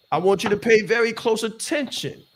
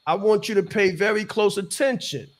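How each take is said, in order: Both takes have the same delivery.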